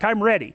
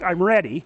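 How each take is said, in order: First: It is said playfully, with a smile. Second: It is said seriously, like a threat.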